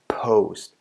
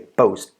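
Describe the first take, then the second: First: The p is released with a puff of air. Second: The p is released without a puff of air. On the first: The speaker calls it right. "But actually, it's" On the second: The speaker calls it wrong. "You don't say"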